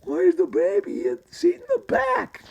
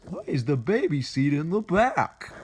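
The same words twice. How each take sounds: First: Extremely high squeaky falsetto; voice jumped high. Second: Put-on higher questioning voice; high cartoon voice. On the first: Acted. Tunnel Rat asking about baby seat, voice jumped high. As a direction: squeak it out far above your normal range, louder. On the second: Tunnel Rat asking about the baby seat, high cartoon voice. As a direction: ask it in a raised character voice.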